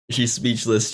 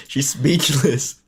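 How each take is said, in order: First: Said in the usual way. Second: Slow, drawn-out teasing declaration; a hammed-up slow reveal; mock dramatic announcement. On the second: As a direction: stretch it out like breaking news. Teasing sister after clip.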